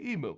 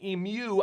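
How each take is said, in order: First: The word is said the American way. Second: The word is said the Australian way. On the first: The speaker calls it wrong. "I like to say emu" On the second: The speaker calls it right. "you say it wrong"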